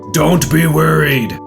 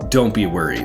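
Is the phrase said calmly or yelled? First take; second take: yelled; calm. First: It is yelled in a loud, harsh voice. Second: It is said in a calm, gentle voice. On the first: The speaker calls it wrong. "it doesn't work" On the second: The speaker calls it right. "That tone of voice makes sense"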